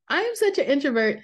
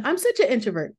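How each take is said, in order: First: Laughing. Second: Said in the usual way. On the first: Real, not acted.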